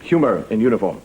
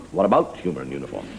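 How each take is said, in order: First: Said in the usual way. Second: Much lower, falling delivery; low voice with a falling end; low-pitched repeat. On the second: Shown as a demonstration. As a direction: drop the whole question down low. Same phrase repeated differently.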